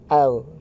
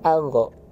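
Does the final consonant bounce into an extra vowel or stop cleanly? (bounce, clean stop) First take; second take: clean stop; bounce. First: The final consonant stops cleanly without bouncing. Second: The final consonant bounces into an extra vowel. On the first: The speaker calls it right. "tapi al" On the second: The speaker calls it wrong. "bukan algo"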